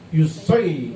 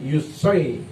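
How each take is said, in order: Both takes have the same delivery.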